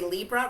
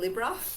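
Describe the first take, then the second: First: Libra is said with an American pronunciation. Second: Libra is said with a non-American pronunciation. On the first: It suits an American audience. "Because of my American audience on YouTube, I've taught myself to say Libra" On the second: It is the speaker's former habit. "rather than Libra"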